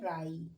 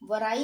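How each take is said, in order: First: The word starts with an r sound. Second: The word starts with a w sound. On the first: The speaker calls it right. "अब हम इसे पढ़ेंगे राई" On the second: The speaker calls it wrong. "वराई नहीं पढ़ेंगे"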